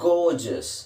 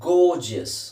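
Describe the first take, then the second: The two takes are said the same way.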